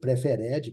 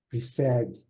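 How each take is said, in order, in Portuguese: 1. A terminação -ed é pronunciada como uma sílaba extra. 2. A terminação -ed não acrescenta sílaba extra.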